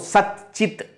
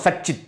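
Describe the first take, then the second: First: The t sound stays before the ch sound. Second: The t sound becomes a ch sound. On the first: The speaker calls it wrong. "If it remains Sat, Ta remains Ta, difficult to pronounce" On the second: The speaker calls it right. "When it becomes Cha, it is easy to pronounce"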